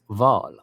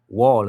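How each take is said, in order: First: The word begins with a V sound. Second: The word begins with a W sound. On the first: "They can't pronounce the W, so it's the V" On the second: "Instead of wall"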